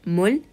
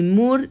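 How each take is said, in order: First: The word ends with an L-like sound. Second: The word ends with an R-like sound. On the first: The speaker calls it right. "Va a sonar como dal, mul" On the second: The speaker calls it wrong. "ni mur ni shir, no"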